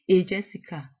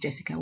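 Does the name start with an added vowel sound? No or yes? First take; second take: yes; no. First: An extra vowel is added before the j. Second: It starts directly with the j consonant. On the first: "we would say a Jessica" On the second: "if your name is Jessica"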